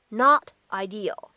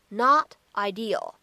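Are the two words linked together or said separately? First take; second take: separate; separate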